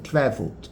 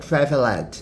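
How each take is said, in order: First: The ending -ed is not said as a syllable. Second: The ending -ed is said as an extra syllable. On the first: The speaker calls it right. "você não pronuncia o e no final" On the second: The speaker calls it wrong. "não é traveled"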